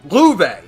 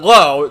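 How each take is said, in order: First: The name is said as 'loove'. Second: The name is said as 'low'. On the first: The speaker calls it right. "and then Louve" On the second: The speaker calls it wrong. "not Low, despite being spelled Low"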